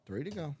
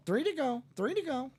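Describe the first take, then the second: First: Said in the usual way. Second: High-pitched parrot repeating a phrase; high parrot mimicry; parrot impersonation. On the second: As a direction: squawk it back like a pet parrot. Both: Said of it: "That's my parrot impersonation".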